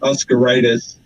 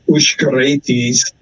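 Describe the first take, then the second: First: The name is said with an American pronunciation. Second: The name is said with a Lithuanian pronunciation. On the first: "some of the Oscaritises in America pronounce it" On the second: "The Lithuanians and Russians pronounce it"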